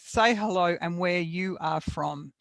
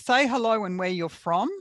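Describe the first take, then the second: First: The words 'you are' are said in full. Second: The words 'you are' are contracted together. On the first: "or we could have written that as" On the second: "The same with the other bit"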